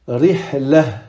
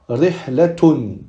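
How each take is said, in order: First: The final letter is sounded as an h. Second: The final letter is sounded as a t. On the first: The reading stops on this word. "on va le prononcer comme un ha" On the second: The reading continues onto a following word. "on va prononcer le ta marbuta comme un ta"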